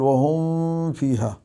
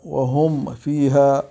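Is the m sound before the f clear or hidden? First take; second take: hidden; clear. First: The m is hidden, blending into the f. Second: The m is pronounced clearly before the f. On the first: The speaker calls it wrong. "ولا نقول" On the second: The speaker calls it right. "يعتنى بإظهار الميم عند الفاء"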